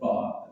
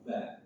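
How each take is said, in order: First: The letter is pronounced heavy and thick. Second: The letter is pronounced light and thin. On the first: The speaker calls it wrong. "jangan ditebalkan" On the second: The speaker calls it right.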